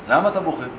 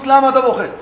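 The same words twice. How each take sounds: First: It sounds friendly and casual. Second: It sounds confrontational and pressing. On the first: A friend is gently asking what is wrong. The speaker calls it right. "מישהו ככה שיושב איתו לאיזה שיחת רעים" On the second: The listener is being pushed to face his pain. The speaker calls it wrong. "לא ככה"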